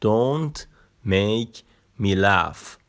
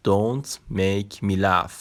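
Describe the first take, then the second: First: "Don't", "make", "me laugh." split apart with pauses; word by word. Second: Slow, even model sentence for learners; slow full-sentence demo. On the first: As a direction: pause after each word like a drill. (کلمه به کلمه با مکث) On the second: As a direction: say "Don't make me laugh." very slowly as one phrase. (جملهٔ کامل، خیلی آهسته) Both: Shown as a demonstration. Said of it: "نگاه کن".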